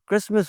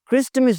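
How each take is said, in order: First: The t sound is silent. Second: The t sound is pronounced. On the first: The speaker calls it right. "क्रिसमस होता है" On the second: The speaker calls it wrong. "क्रिस्टमस नहीं होता"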